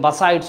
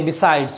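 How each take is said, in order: First: The first syllable has a reduced 'uh' vowel. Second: The first syllable has a clear 'ee' vowel. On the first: This is the colloquial form. "Colloquial ল্যাঙ্গুয়েজে বাসাইডস উচ্চারণ করে" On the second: This is the standard form. "আমি বিসাইডস বলি"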